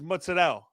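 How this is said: It is said with a New York pronunciation. This is how Italian Americans in New York say it. "But in New York and New Jersey, it's mozzarella"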